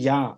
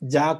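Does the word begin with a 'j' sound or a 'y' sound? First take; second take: y sound; j sound. First: The word begins with a 'y' sound. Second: The word begins with a 'j' sound. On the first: The speaker calls it right. "అది యా" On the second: The speaker calls it wrong. "జా కాదు"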